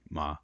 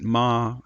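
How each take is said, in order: First: The pitch stays low throughout. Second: The pitch stays level and steady. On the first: "it very often is simply a low tone" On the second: "I'm keeping it level"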